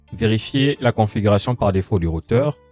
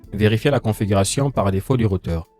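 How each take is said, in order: No difference in how they are said.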